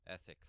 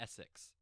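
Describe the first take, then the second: First: The s sounds are lisped, like th. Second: The s sounds are clear and hissed. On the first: The speaker calls it wrong. "That that sounds like ethics, not Essex" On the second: The speaker calls it right. "There we go"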